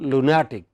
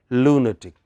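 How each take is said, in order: First: The stress is on the second syllable. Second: The stress is on the first syllable. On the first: The speaker calls it wrong. "By that rule, it should have been lunatic" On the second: The speaker calls it right. "this is pronounced as lunatic"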